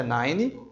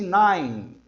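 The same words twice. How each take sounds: First: "nine" in two syllables, NAI-nee; mispronounced NINE. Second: "nine" as one syllable ending on N; silent E in NINE. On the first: Teacher imitating what many learn wrongly, "nine" said as nai-nee. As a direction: add an ee after the final N of "nine". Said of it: "Isso não existe". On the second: Teacher correcting the mistake, "nine" with a silent E. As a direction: hold "nine" and close on N, no vowel after. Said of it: "esse E não tem som". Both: Shown as a demonstration.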